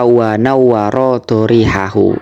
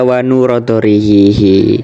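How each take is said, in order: First: The verb is said doubled, as 'nawwara', ending '-ahu'. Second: The verb is said short, as 'nura', ending '-ihi'. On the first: The speaker calls it right. "Mestinya Pak Haris baca wa nawwara dharihahu" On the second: The speaker calls it wrong. "itu kok dibaca wa nura dhariqihi"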